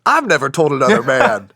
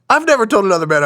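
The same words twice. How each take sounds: First: Amused, laugh slips in. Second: "never" punched higher and louder; louder, higher insistent "I've never told another man"; emphatic. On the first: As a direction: laugh breaking into the line. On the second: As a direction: hit "never" hard, a real insistence. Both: Real, not acted. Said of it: "same words twice, second emphatic".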